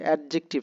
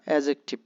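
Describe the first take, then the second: First: The d sound before the j is pronounced. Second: The d sound before the j is silent. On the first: The speaker calls it wrong. "তো এটা অ্যাডজেক্টিভ না" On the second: The speaker calls it right. "ডি is silent হেয়ার।"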